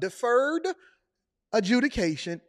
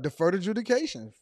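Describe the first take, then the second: First: The two words are clearly separated. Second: The two words are run together as one. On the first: The speaker calls it right. "speak like you actually breaking the words up?" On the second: The speaker calls it wrong. "I thought it was just one word"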